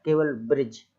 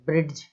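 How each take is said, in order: First: ब्रिज read simply as "brij" with a silent D; correct reading. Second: ब्रिज with the D sounded, "brid-j"; wrong reading shown. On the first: Teacher gives pupils the right reading, a simple ब्रिज. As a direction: keep it short, ब्रिज with no D. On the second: Teacher shows the misreading to pupils, ब्रिज with a sounded D. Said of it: "ऐसा नहीं बोलना है". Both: Shown as a demonstration.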